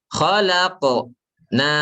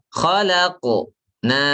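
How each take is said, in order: Both takes have the same delivery.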